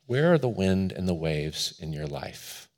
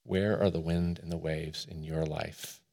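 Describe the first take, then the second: First: Quiet, pensive invitation to reflect; reflective question. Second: Very soft, low-pitched question; hushed, pensive pulpit question; hushed reflective question. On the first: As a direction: ask it gently and let it hang. Reflective question put to congregation. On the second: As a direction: ask it low and quietly, leaving space. Question repeated more quietly for reflection. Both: Real, not acted.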